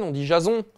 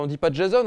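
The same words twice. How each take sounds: First: "Jason" French-style, ja-zon with nasal ending; French pronunciation. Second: "Jason" English-style, with an eh vowel and sounded final n; French spelling pronunciation rejected. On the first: Parent correcting others, "Jason" said French-style as ja-zon. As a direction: say "Jason" with an ah vowel and silent n. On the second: Parent rejecting a pronunciation, "Jason" said English-style with eh. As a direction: say "Jason" as djé-zonne. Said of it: "et qui te disent". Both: Retold or imitated.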